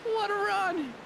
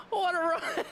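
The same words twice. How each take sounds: First: Much higher, hammed-up thrilled cry; bigger excited exclaim. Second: High, thrilled exclamation; excited exclaim. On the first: Streamer repeats his reaction to the win, bigger excited cry. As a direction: oversell the finish for laughs. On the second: Streamer reacts to the stage winner, excited exclaim. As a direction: cheer the finish. Stage win just happened. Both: Real, not acted.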